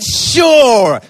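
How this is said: It sounds eager and enthusiastic.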